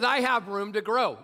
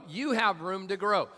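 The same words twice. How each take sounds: First: "I" hit higher and harder; stress on I. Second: "You" picked out with a raised pitch; stress on You. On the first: Preacher admitting his own shortfall, stress on I. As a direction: lean firmly on the word "I". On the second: Preacher turning to the congregation, stress on You. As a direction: point it at them with "You". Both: Real, not acted. Contrasts who has room.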